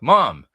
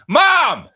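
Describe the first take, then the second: First: It is said quietly and shyly. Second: It is called out loudly, projected across a distance.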